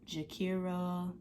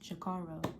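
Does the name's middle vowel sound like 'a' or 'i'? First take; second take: i; a. First: The middle vowel sounds like an 'i'. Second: The middle vowel sounds like an 'a'. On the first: The speaker calls it wrong. "like there's no I in my name" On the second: The speaker calls it right. "It's Jakara"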